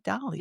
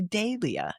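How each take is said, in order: First: The first syllable sounds like doll. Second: The first syllable does not sound like doll. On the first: This follows the botanist's name, Dahl. "I see that H and I can't go Dahlia. I want to say Dahlia" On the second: This is how British speakers say it. "the Brits say Dahlia"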